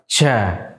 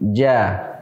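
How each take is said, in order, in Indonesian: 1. Konsonannya lepas, nafas dan suara mengalir. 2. Konsonannya tertahan, nafas dan suara ditahan. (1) "nafas tidak tertahan, suara juga tidak tertahan, sehingga terucap ja" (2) "karena dia punya sifat jahar dan syiddah membuatnya tidak demikian terucap, tapi ja"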